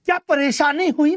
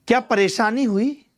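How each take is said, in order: First: High-pitched, insistent repeat of the question; higher, demanding "what went wrong?". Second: Said in the usual way. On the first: Real, not acted. Teacher repeats the question with emphasis.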